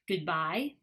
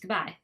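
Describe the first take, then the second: First: Both syllables are said fully and clearly. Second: The first syllable is weakened and run together. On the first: "the strong form" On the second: "the weak form or reduced form"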